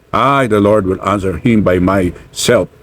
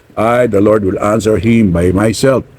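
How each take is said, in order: The two takes are said the same way.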